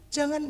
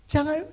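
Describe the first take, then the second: No difference in how they are said.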